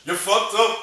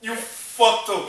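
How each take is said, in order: First: Higher and louder, blunt; emphatic call-out, higher and louder; loud verdict. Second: Slow, higher and louder, each word drawn out; mocking slow repeat, higher and louder; slow emphatic repeat. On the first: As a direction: slam the verdict down. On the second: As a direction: drag it out for emphasis. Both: Real, not acted.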